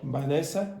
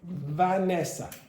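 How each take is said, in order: First: The name begins with a b sound. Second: The name begins with a v sound. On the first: The speaker calls it wrong. "A lot of you will go" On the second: The speaker calls it right. "In English, it's Vanessa"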